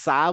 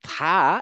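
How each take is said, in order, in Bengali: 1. এটা s শব্দ দিয়ে শুরু, জিভ দাঁতের পিছনে। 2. এটা জিভ দাঁতে লাগিয়ে শুরু হয়। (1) "আমরা যখন সা বলি তখন আমাদের জিভটা দাঁতে লাগে না" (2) "জিভটা দাঁতে লাগবে"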